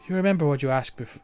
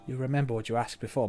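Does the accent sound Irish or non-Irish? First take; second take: Irish; non-Irish. First: The line slides into an Irish accent. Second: The line is said without an Irish accent. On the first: The speaker calls it wrong. "It keeps sliding into Irish" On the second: The speaker calls it right.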